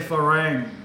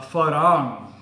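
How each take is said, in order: First: It is said with an English-style pronunciation. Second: It is said with a Thai-style pronunciation. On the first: It follows the English spelling. The speaker calls it wrong. "a lot of foreigners, especially English people, say farang" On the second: It follows the Thai spelling. The speaker calls it right. "But in Thai, it's not spelt like that. It's spelled uh, farang"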